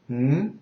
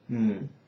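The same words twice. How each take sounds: First: The hum follows the second tone. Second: The hum follows the third tone. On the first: "the second is" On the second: "the third is"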